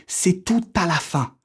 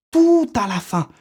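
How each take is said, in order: First: Said in the usual way. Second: "Tout à la fin" repeated higher, stress on "tout"; emphatic repeat. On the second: Shown as a demonstration. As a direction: hammer home "Tout", slow and high. (répété plus haut, en appuyant sur « tout »)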